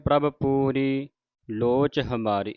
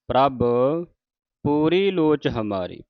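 First: The phrase runs on without a pause after the first word. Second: There is a pause after the first word. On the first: The speaker calls it wrong. "ਇਸ ਤਰ੍ਹਾਂ ਨਹੀਂ ਪੜਨਾ" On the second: The speaker calls it right. "ਪ੍ਰਭ ਤੇ ਵਿਸਰਾਮ ਲਾ ਕੇ ਪੂਰੀ ਲੋਚ ਹਮਾਰੀ"

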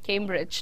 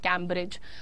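First: The first vowel sounds like 'ay' in 'came'. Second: The first vowel sounds like 'a' in 'cat'. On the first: The speaker calls it right. "केम्ब्रिज not कैम्ब्रिज" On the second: The speaker calls it wrong. "Not कैम्ब्रिज"

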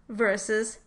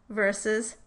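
Both takes have the same delivery.

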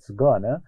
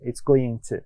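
First: It is said the American way, as gonna. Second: It is said the British way, as going to.

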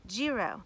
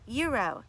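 First: The word starts with a G sound. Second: The word starts without a G sound. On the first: The speaker calls it wrong. "and not gyro" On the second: The speaker calls it right. "The G is silent, you guys. It's pronounced gyro"

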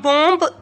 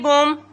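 First: The final b is pronounced. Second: The final b is silent. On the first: The speaker calls it wrong. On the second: The speaker calls it right.

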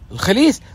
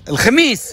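First: The middle consonant is an l sound. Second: The middle consonant is an m sound. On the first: The speaker calls it wrong. "شو الخليس بعد؟" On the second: The speaker calls it right. "قول الخميس"

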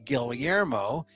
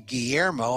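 First: The name is pronounced the Filipino way. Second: The name is pronounced in a non-Filipino way. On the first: This is how the speaker's family says it. "that's the way the Filipinos say it" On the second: This is not how the speaker's family says it. "I don't say Guillermo"

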